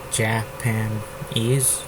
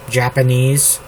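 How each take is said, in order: First: Japanese stretched slow and soft, each syllable apart; soft, slow syllable count on Japanese; syllables drawn out. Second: Said in the usual way. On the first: Shown as a demonstration. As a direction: count out Ja-pa-nese slowly. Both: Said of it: "three syllables".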